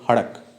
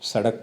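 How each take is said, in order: First: The word begins with an h sound. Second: The word begins with an s sound. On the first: "स का उच्चारण क्या करते थे? है करते थे" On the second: "जैसे सड़क को"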